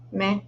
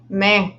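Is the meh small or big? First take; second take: small; big. First: It is said as a small, plain meh. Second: It is said as a big, drawn-out meh.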